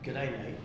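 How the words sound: It is said in an Australian accent.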